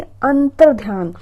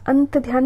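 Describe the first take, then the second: First: अंतर ध्यान slowly with a clear 'tar'; correct form. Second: अंत ध्यान with no r; wrong form. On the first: Teacher correcting students, slow clear r in अंतर ध्यान. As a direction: stretch out 'an-tar' in अंतर ध्यान. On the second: Teacher showing the mistake, plain 'ant' in अंत ध्यान. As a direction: drop the r from the first word of अंत ध्यान. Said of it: "अंत ध्यान नहीं". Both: Shown as a demonstration.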